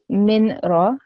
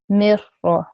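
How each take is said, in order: First: The n sound is pronounced before the r. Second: The n sound is merged into a doubled r. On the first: The speaker calls it wrong. "So I wouldn't say min ra" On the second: The speaker calls it right. "I will merge the meme and the ra sound. Mir ra"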